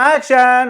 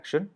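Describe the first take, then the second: First: It is said brightly and cheerfully. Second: It is said softly and calmly. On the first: The scene is a jolly, fun one. "ரொம்ப ரொம்ப ஜாலியான scene action" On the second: The scene is a subtle, quiet one. "ரொம்ப சட்டிலான சீனா action அப்படிங்குவார்"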